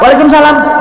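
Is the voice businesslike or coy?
businesslike. It is said in a firm, businesslike voice. The listener is a male superior at work. "harusnya siapa?"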